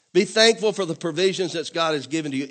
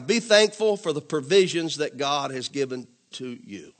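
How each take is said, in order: First: Said in the usual way. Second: Slow and deliberate, word by word; slow dictation. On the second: Shown as a demonstration. Pastor dictating a point to the congregation, slowly. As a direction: spell it out for note-takers. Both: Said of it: "write this down".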